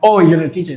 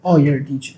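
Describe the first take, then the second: First: It sounds impressed and respectful. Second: It sounds dismissive and condescending.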